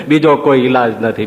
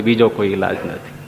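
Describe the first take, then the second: First: Said in the usual way. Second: બીજો કોઈ ઈલાજ નથી much lower and softer, trailing off; soft echo. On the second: Real, not acted. Preacher repeats to the assembly as a low, soft echo.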